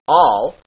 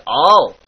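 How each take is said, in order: First: Said in the usual way. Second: "all" with a little musical lilt. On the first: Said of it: "turns into". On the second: Shown as a demonstration. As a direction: let "all" sing a touch. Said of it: "slightly lilted".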